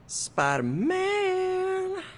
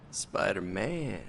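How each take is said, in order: First: Very slow, high drawn-out cry; high hero voice. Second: Slow, low and quiet; low hero voice. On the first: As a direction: stretch the name up high. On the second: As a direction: draw the name out darkly. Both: Shown as a demonstration. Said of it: "Practice their hero voice".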